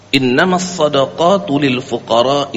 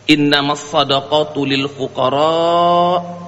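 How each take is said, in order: First: The final vowel of fuqara is held short. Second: The final vowel of fuqara is held long. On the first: The speaker calls it wrong. "Dengan bacaannya pendek, dua harakat" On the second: The speaker calls it right.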